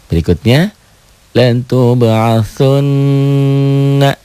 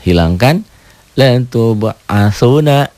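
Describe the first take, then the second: First: The n sound is held long and doubled. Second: The n sound is short and single.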